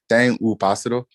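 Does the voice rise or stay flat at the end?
rises. The voice rises at the end like a question.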